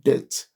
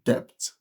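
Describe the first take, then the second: First: The b sound is silent. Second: The b sound is pronounced. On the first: "instead of depth" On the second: "an average Nigerian will pronounce that as depth"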